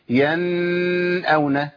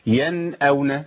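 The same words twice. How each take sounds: First: The n is held longer than normal. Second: The n is pronounced clearly with normal length. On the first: The speaker calls it wrong. "ولا اقول ينأون لان زودت الزمن زيادة" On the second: The speaker calls it right. "اول حكم بيقابلني هو اظهار النون"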